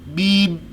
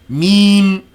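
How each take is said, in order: First: The sound is blocked from the nose. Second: The sound resonates through the nose. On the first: "if I close them" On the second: "if I release my nostrils"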